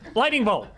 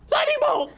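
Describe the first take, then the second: First: It is said at a lower pitch. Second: It is said at a higher pitch.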